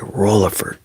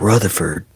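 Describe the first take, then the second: First: The middle consonant is an l sound. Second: The middle consonant is a th sound. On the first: "People will replace the th with an L" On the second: "instead of saying Rutherford"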